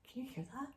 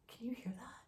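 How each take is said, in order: First: Hushed and higher, more urgent; scared whisper. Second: Hushed, a little higher, nervous; scared whisper. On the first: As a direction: whisper it again, rising with fear. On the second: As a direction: whisper it to your brother in the dark. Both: Retold or imitated. Scared brother in the dark.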